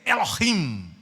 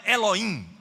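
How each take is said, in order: First: The middle h sound is clearly pronounced. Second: The middle h sound is left silent. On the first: The speaker calls it right. "a letra H ela é pronunciada em hebraico" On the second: The speaker calls it wrong. "Não é Elohim"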